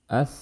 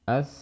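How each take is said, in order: Both takes have the same delivery.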